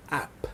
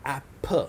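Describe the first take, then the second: First: Said in the usual way. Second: "A, p" as two separate sounds, short a then p; sounded out. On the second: Shown as a demonstration. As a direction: say "A, p" with a pause between the letter sounds. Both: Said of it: "the third one is lesson three".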